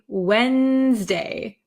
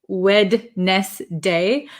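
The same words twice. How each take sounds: First: The D sound in the middle is left out. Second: The D sound in the middle is pronounced. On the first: "I pronounce it Wednesday ... So I kind of take the D sound out" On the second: "So it looks like Wednesday"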